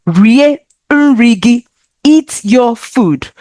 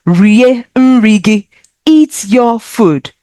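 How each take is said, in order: Both takes have the same delivery.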